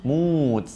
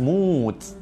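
The two takes are said the same way.

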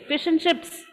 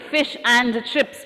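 First: The word 'and' is reduced to 'n'. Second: The word 'and' is said in full. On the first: The speaker calls it right. "We say fish and chips" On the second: The speaker calls it wrong. "We don't say fish and chips"

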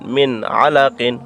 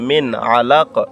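First: The word ends with the full '-qin' ending. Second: The word ends abruptly on the 'q' sound. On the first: The recitation continues without stopping. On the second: The reciter stops at the end of the verse.

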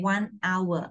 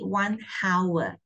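First: The word hour starts without an h sound. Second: The word hour starts with an h sound. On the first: The speaker calls it right. "You don't sound H" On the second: The speaker calls it wrong. "You don't say 1 hour"

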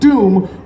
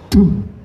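First: The word is said in a plain normal voice. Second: The word is a short sharp puff of air. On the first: The speaker calls it wrong. "instead of just sounding like doom" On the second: The speaker calls it right. "a nice, short puff of air so it goes doom"

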